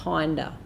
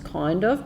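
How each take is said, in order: First: It is said fast, blended into one word. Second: It is said slowly as two separate words. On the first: "as we speed up, it gets faster and it sounds like kinda" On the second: "if we say it slowly, it sounds kind of"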